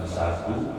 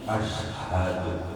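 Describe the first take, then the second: First: It starts directly with a plain s sound. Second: It has a vowel, sh, then a breathy h. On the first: The speaker calls it wrong. "bukan sadu" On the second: The speaker calls it right. "tapi ashadu"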